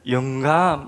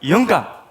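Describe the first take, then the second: First: The first syllable is drawn out slowly. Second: The first syllable is said short and quick. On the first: The speaker calls it wrong. "이게 속도가 좀 그래서 영감 이게 아니라" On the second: The speaker calls it right. "영감 이래야지"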